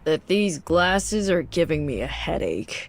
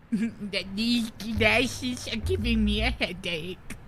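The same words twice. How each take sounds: First: Slow, deadpan nerd reading; nerdy voice. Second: Slow, nasal-free mocking echo; slow mocking repeat of the line; mock nerd repeat. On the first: Acted. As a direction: read it like a dull nerd. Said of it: "my Redditor voice". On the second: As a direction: parrot it back slowly to tease. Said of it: "Okay, nerd".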